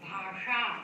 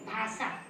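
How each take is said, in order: First: The middle sibilant is retroflex. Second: The middle sibilant is not retroflex. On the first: The word means language. The speaker calls it right. "ष मूर्धन्य षकारस्य उच्चारणेन" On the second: The word means shine or lustre. The speaker calls it wrong. "ये विद्यार्थिनः किं कथयन्ति?"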